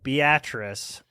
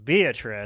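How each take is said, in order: First: The town name is said the local way. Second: The town name is said the outsider way. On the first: The speaker calls it right. "I live in a town called Beatrice" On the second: The speaker calls it wrong. "The number of times it gets pronounced Beatrice"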